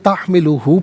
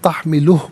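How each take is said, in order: First: The word ends with a short vowel. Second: The word ends on a consonant, vowel dropped. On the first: The reading continues without a stop. "इसे तहमिलुहु पढ़ेंगे" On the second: The reader stops at this word. "वफ़ की सूरत में तहमिलुहु पढ़ा जाएगा"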